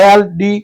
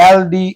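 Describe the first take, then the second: Both takes have the same delivery.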